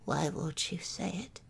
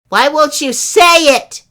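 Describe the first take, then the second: First: It is said very softly. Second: It is said louder.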